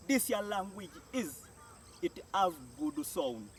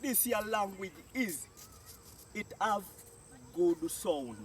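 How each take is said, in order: Both takes have the same delivery.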